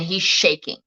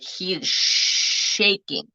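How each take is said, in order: First: Said in the usual way. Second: Slow, stretched "shaking" with a long sh; emphatic SHAKING. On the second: Real, not acted. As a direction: draw out the start of "shaking" for emphasis. Repeats it slowly for emphasis.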